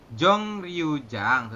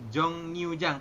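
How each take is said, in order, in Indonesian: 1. Suku kata kedua diawali dengan bunyi R. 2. Suku kata kedua diawali dengan bunyi N.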